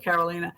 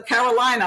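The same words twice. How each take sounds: First: The third syllable sounds like 'leen'. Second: The third syllable sounds like 'line'. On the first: The speaker calls it wrong. "so I don't call you Carolina" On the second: The speaker calls it right. "It's like North Carolina"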